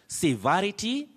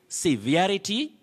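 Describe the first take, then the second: The two takes are said the same way.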